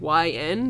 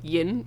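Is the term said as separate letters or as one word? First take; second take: letters; one word. First: It is said as two separate letters. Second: It is said as one single-syllable word. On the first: "they don't pronounce it YN" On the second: "They pronounce it, like, Yin or something"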